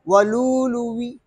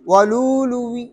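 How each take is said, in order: First: The word ends with a faint, partial i-vowel. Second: The word ends with a faint, partial i-vowel.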